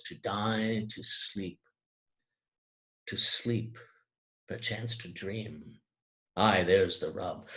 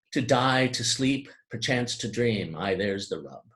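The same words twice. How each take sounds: First: Softer, slower with the repeated "to sleep" drawn out; slow, brooding recitation. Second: Said in the usual way. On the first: Shown as a demonstration. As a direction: let "to sleep, to sleep" hang with a pause, pensive. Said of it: "Rather, he says". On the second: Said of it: "He does not say".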